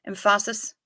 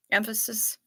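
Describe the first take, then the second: First: Emphasis said as em-PHA-sis, with a broad ah in the middle; stress on the second syllable. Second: Said in the usual way. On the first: Shown as a demonstration. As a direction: lean on PHA in emphasis, rising at the end.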